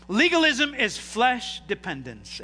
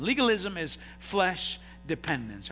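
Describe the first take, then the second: First: Slow, each word leaned on for the notes; slow emphatic statement. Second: Said in the usual way. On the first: Shown as a demonstration. Preacher to congregation, slow and emphatic. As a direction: hammer the point home slowly. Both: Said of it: "Everybody write that down".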